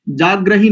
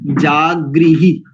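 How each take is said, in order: First: जाग्रही with a र cluster, wrong; जाग्रही said with ग्र, not the ऋ vowel; जाग्रही as the mistaken form; wrong pronunciation. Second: जागृही slowly with the ऋ vowel; drawn out जागृही, गृ sounded as ri; जागृही stretched, syllable by syllable; correct pronunciation. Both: Shown as a demonstration. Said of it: "जाग्रही नहीं करेंगे".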